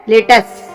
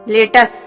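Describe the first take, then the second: Both takes have the same delivery.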